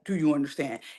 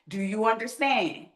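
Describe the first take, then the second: First: The question sounds sarcastic and mocking. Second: The question sounds sincere and genuinely checking. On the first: The speaker is being mocking toward the listener. "me being sarcastic, like" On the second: The speaker really wants to check understanding. "that's not me being sarcastic"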